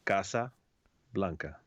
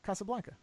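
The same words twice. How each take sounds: First: Casa Blanca with open ah vowels, split in two; Spanish-style Casa Blanca. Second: Casablanca with flat a sounds as in cat, said as one word; American Casablanca. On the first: Teaching her partner the Spanish way: careful Casa Blanca. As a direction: say Casa, pause, then Blanca, both with a broad ah. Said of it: "Now, repeat after me". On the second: Repeating after the host, flat American Casablanca. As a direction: Casablanca the plain American way, short flat a's. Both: Shown as a demonstration.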